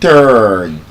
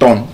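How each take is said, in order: First: The vowel is said with a long R sound. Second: The vowel is said without a long R sound. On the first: The speaker calls it right. "Long R sound" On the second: The speaker calls it wrong. "You don't turn to the right or turn to the left"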